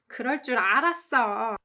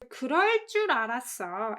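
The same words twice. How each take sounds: First: The stress falls on the final verb part. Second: The stress falls on the opening part. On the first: "you can put emphasis on 알았어" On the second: "With the emphasis on 그럴 줄"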